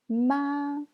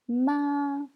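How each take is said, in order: First: It is said with the first tone. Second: It is said with the first tone.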